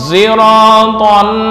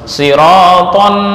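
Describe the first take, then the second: First: The first sound is blended toward a z. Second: The first sound is a plain emphatic s. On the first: This follows another reading tradition. "praktek ishmam menurut Imam Hamzah" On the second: This follows one reading tradition. "menurut Hafaz"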